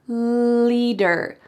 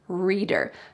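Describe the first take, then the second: First: The word begins with a clear L sound. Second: The word begins with an R sound. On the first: The speaker calls it right. "if you want to make a clear L sound, your tongue can go between your teeth" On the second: The speaker calls it wrong. "I heard him say reader instead of leader"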